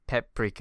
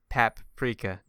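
First: The first syllable sounds like 'pep'. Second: The first syllable sounds like 'pap'. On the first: The speaker calls it wrong. "not Peprika" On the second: The speaker calls it right. "it's not an E, so it's not a pep"

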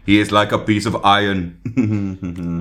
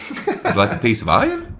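First: It is said in an Austrian accent. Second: It is said in an Australian accent. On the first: "That's Austrian" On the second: "You could do an Australian accent"

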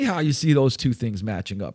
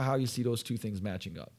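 First: It is said in a judgmental, accusing tone. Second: It is said in a neutral, curious tone. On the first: The speaker disapproves of the listener's behavior. The speaker calls it wrong. "Now it's like I'm being judgmental" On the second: The speaker is simply curious about the mismatch. The speaker calls it right. "you got to be careful to be neutral and non-judgmental here"

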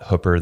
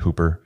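First: It is said the way locals say it. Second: It is said the way it is spelled. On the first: This is how residents of the town say it. "which they call it Hooper there" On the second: This is how outsiders reading the word say it. "most people would look at the word and pronounce it Hooper"

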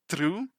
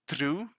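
No difference in how they are said.

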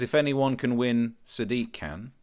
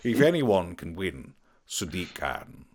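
First: It is read in a plain, normal voice. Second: It is said in a dramatic voiceover voice.

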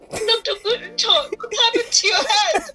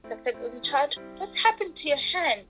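First: It is said louder, as a wail. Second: It is said at normal volume.

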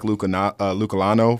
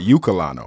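First: The name begins with an L sound. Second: The name begins with a vowel sound. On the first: The speaker calls it wrong. "I said it with an L" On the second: The speaker calls it right. "Like ukulele"

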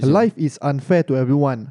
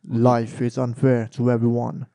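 First: It is said in an ordinary speaking voice. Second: It is said in a put-on villain voice.

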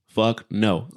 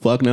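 First: It is said at a normal volume. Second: It is said more loudly.

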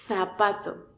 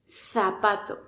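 First: The first sound is a th sound. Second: The first sound is a th sound.

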